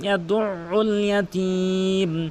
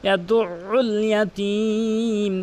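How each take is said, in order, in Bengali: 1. 'yad'-এর পরে দ্বিগুণ করা হলকি হরফে চাপ দিয়ে পড়া হয়। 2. 'yad'-এর পরে দ্বিগুণ করা হলকি হরফে চাপ দিয়ে পড়া হয়।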